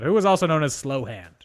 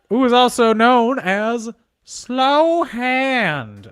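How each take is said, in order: First: It is said in a natural speaking voice. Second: It is said in a put-on character voice.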